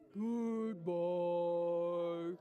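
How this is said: It is said in a very low voice.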